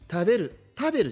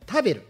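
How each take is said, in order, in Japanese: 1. 標準的な日本語のピッチで言われています。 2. 静岡方言のピッチで言われています。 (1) "食べるじゃない" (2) "イントネーション違いって食べる、これがもしかしたら静岡イントネーションかもしれない"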